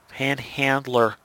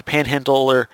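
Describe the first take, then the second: First: "panhandler" slowly, each syllable separate; careful correction. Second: "panhandler" with its middle muddled; stumbled word. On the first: Narrator corrects a slip on the villain's title, careful correction. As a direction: say "panhandler" at half speed, carefully. Careful retake of stumbled word. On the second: Narrator stumbles on the villain's title in a recap, stumbled word. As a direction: trip over the middle of "panhandler". Stumbles, then says it over. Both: Real, not acted.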